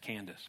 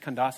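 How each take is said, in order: First: It has the everyday American pronunciation. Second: It has the original, non-American pronunciation. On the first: "In America, we just say Candace" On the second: "But it's actually the way you say it, it's Candace"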